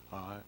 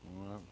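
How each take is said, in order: Both takes have the same delivery.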